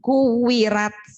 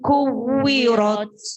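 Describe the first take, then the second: First: The r is said light, with a thin a. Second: The r is said heavy, with a dark o-like vowel. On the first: The speaker calls it wrong. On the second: The speaker calls it right.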